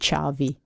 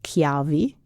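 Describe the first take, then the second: First: The word begins with a soft sound. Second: The word begins with a hard K sound.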